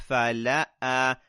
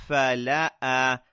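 Both takes have the same delivery.

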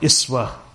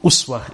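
First: The first vowel is an 'i' sound. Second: The first vowel is an 'u' sound. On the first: "or the Kasra" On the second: "with a Dhamma"

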